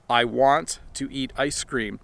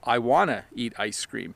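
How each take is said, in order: First: Both words of 'want to' are said in full. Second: 'Want to' is squished together into one word. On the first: "sentences like" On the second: "we reduce it to"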